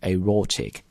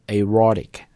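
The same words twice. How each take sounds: First: It is said British style without an r sound. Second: It is said American style with an r sound. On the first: "but in British accent aortic" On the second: "美式英语在读的时候就卷个舌啊"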